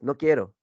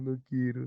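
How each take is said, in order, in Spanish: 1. Se dice con enojo, con más intensidad. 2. Se dice con tristeza, como si estuviera llorando. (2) "Si estás triste, mientras lloras, dices"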